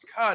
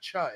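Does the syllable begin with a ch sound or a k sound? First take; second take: k; ch. First: The syllable begins with a k sound. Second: The syllable begins with a ch sound. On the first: The speaker calls it right. "it's ka" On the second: The speaker calls it wrong. "not cha"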